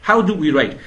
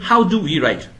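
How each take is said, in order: The two takes are said the same way.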